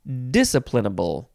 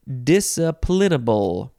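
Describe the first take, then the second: First: The stress is on the first syllable. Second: The stress is on the third syllable. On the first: "or the first syllable" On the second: "You can emphasize the third syllable"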